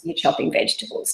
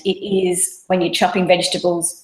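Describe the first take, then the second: First: Softly whispered, breath only. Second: Said in the usual way. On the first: Shown as a demonstration. Mum showing mindful focus, whispered. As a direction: drop to a hushed whisper on you're chopping vegetables. Repeats phrase, second take hushed.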